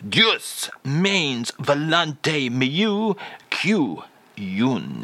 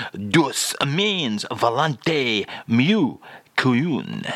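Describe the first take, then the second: First: Slow, drawn-out mock French phrase; "Deus means volonté mieux que une" stretched out with a comic French lilt; fake French phrase. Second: Slow, drawn-out mock French phrase; "Douce means volonté mieux qu'une" stretched out slowly with a fake French lilt. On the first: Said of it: "And again, Charles". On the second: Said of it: "Today's French phrase is". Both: Shown as a demonstration.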